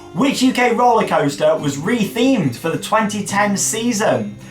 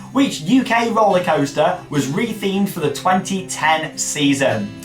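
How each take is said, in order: The two takes are said the same way.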